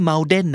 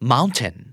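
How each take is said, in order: First: The middle t sounds like a quick d. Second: The middle t is not turned into d. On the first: The speaker calls it wrong. "ก็ไม่" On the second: The speaker calls it right. "นะครับ"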